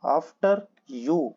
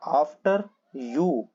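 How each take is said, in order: First: Said in the usual way. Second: "after you" stretched out very slowly for learners; slow, careful "after you"; slow demo. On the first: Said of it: "teacher repeats the phrase". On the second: Shown as a demonstration. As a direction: spell out each word of "after you" slowly. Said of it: "teacher models the phrase slowly".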